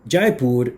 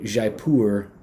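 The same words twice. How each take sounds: First: The name is said with a Hindi pronunciation. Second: The name is said with a French-style pronunciation. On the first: "which would be the pronunciation in Hindi" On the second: "in English uh, to approximate the French pronunciation of this"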